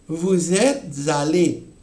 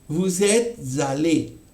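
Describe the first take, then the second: No difference in how they are said.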